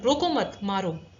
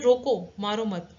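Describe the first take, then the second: First: The pause comes right after 'mat'. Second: The pause comes right after 'roko'. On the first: The listener is told to hit. "वो मारने के लिए बोल रहा है" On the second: The listener is told not to hit. "ना मारने के लिए बोल रहा है।"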